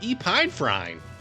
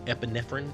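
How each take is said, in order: First: The word is pronounced as read from spelling. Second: The word is pronounced the standard way. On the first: The speaker calls it wrong. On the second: The speaker calls it right.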